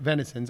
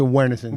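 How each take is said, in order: First: The name begins with a V sound. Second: The name begins with a W sound. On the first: "How many people pronounce it Venisons" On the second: "how many people pronounce it Wenisons"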